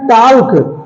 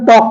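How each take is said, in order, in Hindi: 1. k से पहले l की आवाज़ सुनाई देती है। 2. k से पहले l की कोई आवाज़ सुनाई नहीं देती। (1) "ये लिखा गया है टाल्क, लेकिन इसे टाल्क नहीं बोलते हैं" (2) "इसे हम टॉक बोलते हैं"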